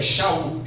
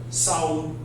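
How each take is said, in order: First: The name begins with an sh sound. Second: The name begins with an s sound. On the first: This is the Hebrew form of the name. "hebraica para Saul, que na verdade é Shaul" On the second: This is the Greek form of the name. "no texto grego você já tem uma outra fonética"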